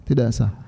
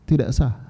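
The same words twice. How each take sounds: No difference in how they are said.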